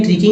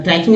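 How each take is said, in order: First: ट्रिकिंग with short i, as in trick; short i pronunciation. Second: ट्रैकिंग with an ai glide, try-king; rejected pronunciation. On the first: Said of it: "ट्रिकिंग ही होगा". (ट्रिकिंग को ट्रिक जैसी छोटी 'इ' से बोलना) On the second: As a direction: open the first vowel of ट्रैकिंग to ai. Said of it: "ट्रैकिंग नहीं". (ट्रैकिंग को 'ऐ' की आवाज़ से बोलना) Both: Shown as a demonstration.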